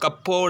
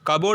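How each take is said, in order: First: The middle p sound is pronounced. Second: The middle p sound is silent. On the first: The speaker calls it wrong. "கப்போர்டு அப்படின்னு சொல்ல மாட்டோம்" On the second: The speaker calls it right. "கபோர்டு தான் சொல்லுவோம்"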